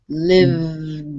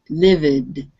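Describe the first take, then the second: First: The v goes straight into the d. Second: An extra vowel is heard between v and d. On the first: The speaker calls it right. "No eh, no eh sound. It's from the V to the D" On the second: The speaker calls it wrong. "Be careful that you don't pronounce the E after the V. It was sounding a little bit like"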